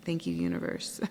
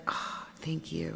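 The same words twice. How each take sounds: First: Thanks dropped much lower, murmured. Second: Soft breathy whisper of gratitude, slowed down; whispered thanks. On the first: Thanking the universe after the whisper, low murmur. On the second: Thanking the universe in a small moment, whispered. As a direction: breathe out a grateful thank you. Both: Retold or imitated.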